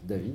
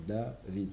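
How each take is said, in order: First: "David" unbroken, rising on the last syllable; said in one go. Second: "David" slower, "Da" marked, then "vid" falling; first syllable marked. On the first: Teacher demonstrates Milra to pupil, "David" in one go. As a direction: run "David" straight through to "vid". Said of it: "après, je dis d'un trait". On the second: Teacher demonstrates Milel to pupil, "David" stressed on "Da". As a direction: mark "Da" in "David", then finish softly. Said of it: "je marque la première syllabe et je termine". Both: Shown as a demonstration.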